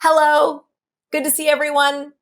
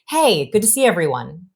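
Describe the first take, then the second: First: It is said after a gasp, breath held. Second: It is said relaxed, on the out-breath.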